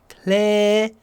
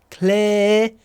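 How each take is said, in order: The two takes are said the same way.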